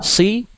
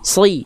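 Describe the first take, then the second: First: The s sound is thin and light. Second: The s sound is thick and heavy. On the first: The speaker calls it wrong. "bukan cuman si" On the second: The speaker calls it right. "tapi sli"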